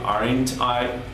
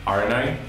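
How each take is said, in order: First: The T in aren't is clearly pronounced. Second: The T in aren't is dropped. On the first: The speaker calls it wrong. "instead of saying aren't I" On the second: The speaker calls it right. "normally you don't pronounce the T"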